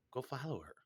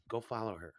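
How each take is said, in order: First: Quieter inner voice. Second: Said in the usual way. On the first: Retold or imitated. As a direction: Go follow her repeated much softer, falling. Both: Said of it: "my inner voice kicking in saying".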